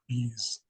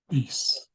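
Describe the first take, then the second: First: The word ends with a buzzing Z sound. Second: The word ends with a hissing S sound. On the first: The speaker calls it wrong. "It won't sound like a Z, like bees" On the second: The speaker calls it right. "the S makes a S sound"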